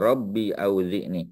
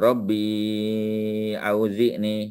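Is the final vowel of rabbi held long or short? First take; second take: short; long. First: The vowel ending rabbi is kept short. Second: The vowel ending rabbi is held long. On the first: The letter is dropped to make reading easier. "tak payah baca empat harakat. Terus saja" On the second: The dropped letter is still present. "kita kena baca empat atau lima harakat. Rabbi panjang"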